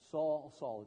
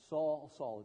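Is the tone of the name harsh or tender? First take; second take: tender; tender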